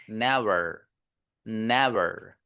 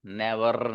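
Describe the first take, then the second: First: "नेवर" with a smooth untrilled final r, pitch lower; English R ending. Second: "नेवर" ending in a trilled r, lower pitch; wrong rolled R. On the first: ("नेवर" में बिना लुढ़का र) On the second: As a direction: tap out the final r of "नेवर". ("नेवर" में कड़ा लुढ़कता र) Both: Shown as a demonstration. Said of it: "नेवर नहीं".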